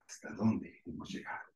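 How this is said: It sounds negative and doubtful. The speaker laments how far things have gone wrong. "negativa o, o cuestionable"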